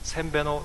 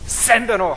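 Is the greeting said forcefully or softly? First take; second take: softly; forcefully. First: The greeting is said softly and mildly. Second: The greeting is said forcefully and harshly. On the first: The speaker sounds like someone from Inner Mongolia. "이 사람 저 내몽골 사람 아니야?" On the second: The speaker sounds like a native of Mongolia. "발음 좋다"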